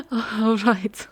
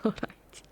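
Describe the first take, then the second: First: Higher and louder, breathy, with rising excitement; eager all right. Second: Much softer, unvoiced, settling down; soft all right. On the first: Acted. Vampire giving in to her hunter, eager and breathy. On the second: Vampire calming herself with her hunter, in a soft hush. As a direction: let the second one fade to a hush.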